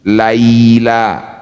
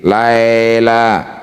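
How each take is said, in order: First: The first vowel glides toward an i sound. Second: The first vowel is a flat e sound. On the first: The speaker calls it right. "Berikan huruf vokal i" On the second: The speaker calls it wrong. "bukan e, berarti belum lembut"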